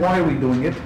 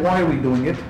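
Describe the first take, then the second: First: The question is asked in a respectful tone. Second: The question is asked in a respectful tone.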